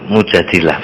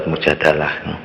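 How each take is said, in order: First: The vowel after the d is an i. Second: The vowel after the d is an a. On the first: The speaker calls it right. "yang lebih pas itu Mujadilah bacanya" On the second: The speaker calls it wrong. "yang sering dibaca surat Mujadalah"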